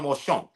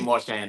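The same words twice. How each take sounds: First: The name is pronounced the French way. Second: The name is pronounced the English way. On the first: "If you want to say the French thing" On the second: "we usually say Marchand"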